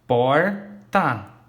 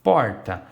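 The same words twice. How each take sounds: First: "porta" dividido, POR... TA, com pausa clara; sílabas separadas. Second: Said in the usual way. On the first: Shown as a demonstration. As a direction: say "porta" as two loud, detached syllables. ("porta" silabado, separando POR e TA) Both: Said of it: "eu ouço o som das duas".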